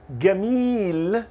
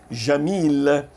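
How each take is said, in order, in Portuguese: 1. O primeiro som é um g duro. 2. O primeiro som é um j suave. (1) "eles trocam por som de G em gato" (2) "ela tem esse som J"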